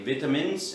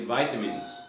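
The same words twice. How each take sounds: First: It is said in a British accent. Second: It is said in an American accent. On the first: "In England they will say vitamins" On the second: "in America they will say vitamins"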